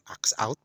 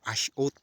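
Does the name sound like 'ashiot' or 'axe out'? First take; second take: axe out; ashiot. First: The name is said like 'axe out'. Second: The name is said like 'ashiot'. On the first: This is how it reads in English. "kung basahin mo sa English" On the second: This is how locals say it. "Yung pronunciation nila dito Ashiot"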